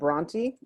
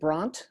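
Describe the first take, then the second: First: The name is said as two syllables. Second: The name is said as one syllable. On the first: The speaker calls it right. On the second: The speaker calls it wrong.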